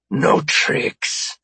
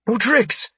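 First: Rough, rasping alien voice; hoarse threat from an alien captor; alien's warning. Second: Very high, anxious echo; high-pitched placating reply; nervous compliance. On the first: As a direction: warn him as a menacing alien. Alien warns guard disarming. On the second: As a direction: promise it as a frightened guard. Frightened guard echoes alien's words. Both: Acted.

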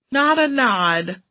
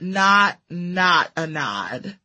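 First: "Not a nod" slow, higher, clearly spelled out; stress on nod. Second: "not, not a nod" very slow, each "not" set apart; stress on double not. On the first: Narrator describing the cat's tiny head movement, "Not a nod" slow and raised. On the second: Narrator qualifying the cat's tiny head movement, "not, not a nod" slow and separated. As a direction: pause between "not" and "not", then ease down through "a nod". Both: A narrator's reading.

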